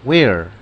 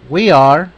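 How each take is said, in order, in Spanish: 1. Se dice como una sola sílaba contraída. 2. Se dice como dos palabras separadas y completas. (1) "en abreviación" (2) "Tenemos we are"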